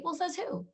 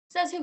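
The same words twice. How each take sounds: First: "says who?" pitched high, challenging; defiant challenge. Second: "Says who?" higher and louder, punching "Says"; louder defiant challenge. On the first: Challenging the doctor's verdict, high and defiant. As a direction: toss the question back defiantly. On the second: Pushing back at the doctor, louder and defiant. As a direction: throw it back harder. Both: Pretend.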